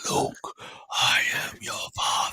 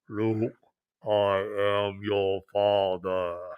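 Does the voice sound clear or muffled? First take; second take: clear; muffled. First: A Vader voice with the mouth uncovered, clear. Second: A Vader voice through a covered mouth, muffled.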